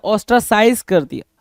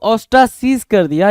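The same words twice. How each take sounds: First: "ostracize" ending like the word "eyes"; "-size" pronunciation. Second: "ostracize" ending with a long ee before z; "-seez" pronunciation. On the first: Teacher gives students the second of two readings, "ostracize" said os-tra-size. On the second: Teacher gives students the first of two readings, "ostracize" said os-tra-seez. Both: Shown as a demonstration. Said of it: "दोनों word में बोल रहा हूँ".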